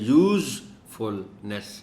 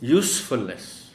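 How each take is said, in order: First: The first syllable has a buzzing z sound. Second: The first syllable has a hissing s sound. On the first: The speaker calls it wrong. "यूज़फुलनेस नहीं कहना" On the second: The speaker calls it right. "यूस सीन की आवाज़ पैदा करनी है"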